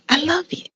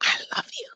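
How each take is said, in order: First: Tender. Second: "I love you" breathed out as a soft high whisper. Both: Shown as a demonstration. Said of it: "had to say to them".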